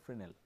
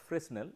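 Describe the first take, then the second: First: The word is pronounced differently from its spelling. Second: The word is pronounced just as it is spelled. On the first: The speaker calls it right. "it is pronounced as Fresnel, hmm, though the spelling is Fresnel" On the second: The speaker calls it wrong. "it is not pronounced as Fresnel"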